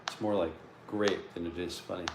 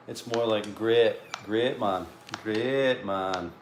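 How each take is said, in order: First: Said in the usual way. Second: Sunderland accent. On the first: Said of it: "my Sunderland accent on". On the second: Shown as a demonstration. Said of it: "trying to get my, my Sunderland accent on".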